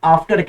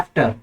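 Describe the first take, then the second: First: After with a long open ah, ahfter; British after. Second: After with a flat front a, as in cat; American after. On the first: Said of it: "बरतानिया के लोग after कहते हैं". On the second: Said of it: "American लोग कहते हैं after". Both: Shown as a demonstration.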